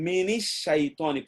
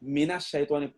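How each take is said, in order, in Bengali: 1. 'min'-এর সঙ্গে i স্বর যুক্ত হয়। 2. 'min'-এর সঙ্গে a স্বর যুক্ত হয়। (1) "মিনিস শাইতানি পড়তে আপনার কষ্ট হতো" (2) "মিনাস শাইতানি পড়তে আপনার কষ্ট হয় না"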